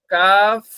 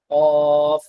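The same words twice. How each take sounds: First: কাফ light, not from the throat; কাফ, a light front sound; light kaf. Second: কফ from deep in the throat; কফ, sounded from inside the throat; deep throat qaf. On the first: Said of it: "গলার ভিতর থেকে না, হ্যাঁ, একটু হালকা ভাবে". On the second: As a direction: pull কফ back into the throat. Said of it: "কফ একটু গলার ভিতর থেকে উচ্চারণ হবে". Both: Shown as a demonstration.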